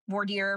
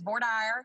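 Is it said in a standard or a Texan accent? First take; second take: standard; Texan. First: It is said with a standard pronunciation. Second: It is said with a Texan accent.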